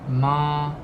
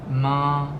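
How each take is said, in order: First: The pitch stays high and level. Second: The pitch stays high and level.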